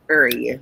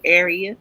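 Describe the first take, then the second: First: "area" said as "urr-ya", r-coloured first vowel, two syllables. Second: Said in the usual way. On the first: Shown as a demonstration. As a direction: say "area" like a Washington DC local, "urr-ya". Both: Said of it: "or as we like to say".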